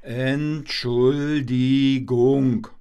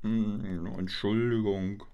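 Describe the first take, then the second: First: Stretched-out, louder Entschuldigung; slow, clear apology. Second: Soft, low Entschuldigung; mumbled apology. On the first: Shown as a demonstration. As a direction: say Entschuldigung slowly and syllable by syllable. (langsam und deutlich: Ent-schul-di-gung) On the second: Acted. (leise genuscheltes Entschuldigung) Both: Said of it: "Ich hab nichts verstanden".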